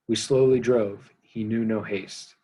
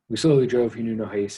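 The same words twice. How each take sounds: First: The line is read at a slower pace. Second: The line is read at a faster pace.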